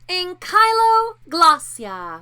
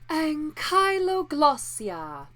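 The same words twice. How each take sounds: First: The voice is pinched and tight. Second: The voice is breathy and airy.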